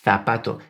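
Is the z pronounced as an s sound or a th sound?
th sound. The z is pronounced as a th sound. This is how it is said in the rest of Spain. "that th sound"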